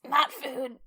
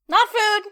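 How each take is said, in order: First: It is said in a strained, choked voice. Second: It is said in a normal, unstrained voice.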